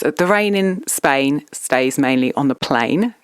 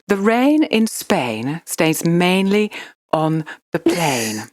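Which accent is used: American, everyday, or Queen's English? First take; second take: everyday; Queen's English. First: It is said in the speaker's everyday accent. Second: It is said in a posh Queen's English accent. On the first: "I'll do it in my normal voice" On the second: "do it in a Queen's English"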